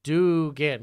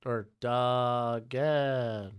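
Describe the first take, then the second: First: "Dugan" said firmly, a bit louder; settled pronunciation. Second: "Duggan" said very slowly with a short u; drawn-out "Duggan", testing the name; slow alternate pronunciation. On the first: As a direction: land on "Dugan" with confidence. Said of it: "Got it". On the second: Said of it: "Dugan. Got it". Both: Shown as a demonstration.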